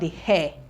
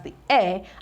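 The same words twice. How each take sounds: First: The word starts with an audible H sound. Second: The word starts with a vowel, no H sound. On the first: The speaker calls it wrong. "and not the heir" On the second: The speaker calls it right. "this is pronounced as the heir"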